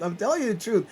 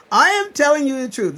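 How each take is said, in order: First: Said in the usual way. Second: Am hit hard, high and loud; insisting on am at full voice; stress on am. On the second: Real, not acted. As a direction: punch the word am, almost shouting.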